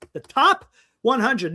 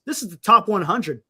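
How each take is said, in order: First: "top" drawn out and set apart; slow down and lean on "top"; emphatic repeat. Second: Said in the usual way. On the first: Real, not acted. Host stressing the prospect list to viewers, emphatic.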